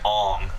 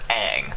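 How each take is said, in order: First: The vowel sounds like the one in 'song'. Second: The vowel sounds like the one in 'bang'. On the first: The speaker calls it wrong. "they called him like Ong" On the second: The speaker calls it right. "like Boomerang"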